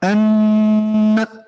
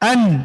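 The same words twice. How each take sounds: First: The n is heard with a held nasal hum. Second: The n is heard clearly without nasal hum. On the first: The speaker calls it wrong. "ये मिक्स हो गई, इजहार भी है इसमें और गुन्ना भी है" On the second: The speaker calls it right. "बस क्लियर हो गया, नून छोड़ देंगे।"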